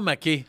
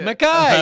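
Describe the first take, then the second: First: The name ends with an 'ay' sound. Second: The name ends with an 'eye' sound. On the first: This is how the name reads on the page. "ça a toujours été dans mon livre" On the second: This is how it is pronounced in Scotland. "je t'entends dire Macaille"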